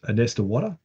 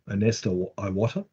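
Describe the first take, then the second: First: The name is said quickly and run together. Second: The name is said slowly and more clearly. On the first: The speaker calls it wrong. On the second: The speaker calls it right.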